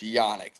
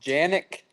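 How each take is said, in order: First: The name begins with a Y sound. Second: The name does not begin with a Y sound. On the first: This is how the name is really pronounced. The speaker calls it right. "like with a Y. You say it with like a Y" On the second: This is a common mispronunciation others use. The speaker calls it wrong. "So there's Janik. ... I get that one the most"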